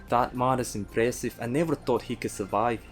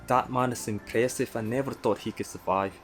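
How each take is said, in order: Both takes have the same delivery.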